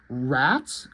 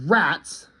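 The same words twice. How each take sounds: First: RATS as a question, rising at the end; puzzled, tentative "Rats" with a rising tune. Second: "Rats" as a statement, falling; mild mock yell of RATS at normal volume; a flagged alarm word, only lightly called out; retold yell. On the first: Acted. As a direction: lower start sliding up on "Rats". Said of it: "Question mark?". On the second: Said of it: "the dogs just yell".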